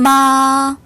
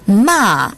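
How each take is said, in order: First: The pitch stays high and level. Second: The pitch falls sharply from high. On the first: It means mother. "일성으로 발음하면 엄마란 뜻이고요" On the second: It means to scold. "마지막 사성으로 발음하면"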